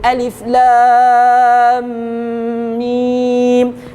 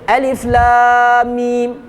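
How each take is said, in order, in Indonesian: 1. Sambungan lam-mim berdengung dan ditahan. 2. Sambungan lam-mim tidak berdengung. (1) "Maka kita oh dengung" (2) "Dia kata tak, lam kepada mim itu ada dengung"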